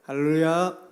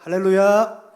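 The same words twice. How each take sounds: First: It is said at normal volume. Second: It is said in a louder voice.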